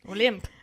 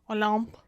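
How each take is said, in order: First: The name is said with an English accent. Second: The name is said with a French accent. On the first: "if you say it without the accent, it just sounds like what they would call her if she got a sprained ankle" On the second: "I feel very French saying it"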